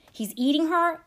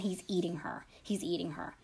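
First: Higher, voiced cry of alarm, acted for a retelling; mildly acted panicked plea; rising panic. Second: Low, whispered horror, acted for a retelling; hushed, barely voiced disbelief; horrified whisper. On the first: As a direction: lift the pitch into desperate disbelief. Caller's panic rising in retold call. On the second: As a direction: whisper it as the stunned caller. Horrified caller in retold call. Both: A narrator's reading.

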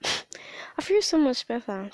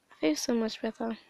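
First: Barely voiced, slow and relieved; hushed and slowed after a cry; relieved whisper. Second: Said in the usual way. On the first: Real, not acted. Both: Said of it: "That's why I sound like this".

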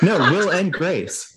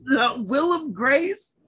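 First: "Will and Grace" with clear "and"; correcting name. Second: "Willem Grace" said as one name; deliberate mispronunciation. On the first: Real, not acted. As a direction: stress "Will and Grace" as three words. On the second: Pretend. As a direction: say "Willem" like Willem Dafoe, slowly. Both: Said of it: "Now you're just messing with me".

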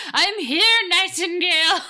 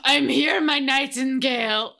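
First: First try at a hammed-up Austrian-ish accent, higher and louder; lightly voiced bodybuilder parody accent; rough mock Austrian voice; Hans and Franz voice. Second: Second, slower take of the mock Austrian bodybuilder accent; drawn out Arnold-parody voice, louder; hammed-up Austrian-ish accent, slower; better Hans and Franz voice. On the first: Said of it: "let me see if I can do that in a better Hans and Franz voice". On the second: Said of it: "in a better Hans and Franz voice".

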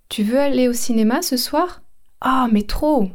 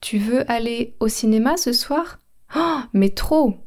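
First: Bright eager question, gushing answer; keen invitation and thrilled yes; enthusiastic reply. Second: Drawn-out thrilled mais trop; slow, gushing yes; slower enthusiastic repeat. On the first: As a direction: act out an excited yes to a movie. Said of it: "Je vous donne un exemple". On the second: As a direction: say it again, stretching the trop. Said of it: "Je répète". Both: Shown as a demonstration.

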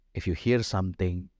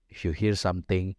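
The two takes are said the same way.

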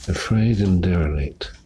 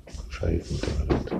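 First: Said in the usual way. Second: Quick whispered first take. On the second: Shown as a demonstration. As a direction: breathe the words fast and soft. Whispered take before spoken one.

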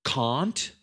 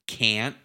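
First: Can't with a long broad ah vowel, kahnt; British can't. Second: Can't with a flat short a, like cant; American can't. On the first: Comparing accents for a friend, British Can't with broad ah. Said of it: "That's, that's British". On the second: Comparing accents for a friend, American Can't with flat a. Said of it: "not subtle with the American one". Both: Shown as a demonstration.

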